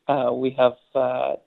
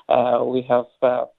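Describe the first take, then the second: No difference in how they are said.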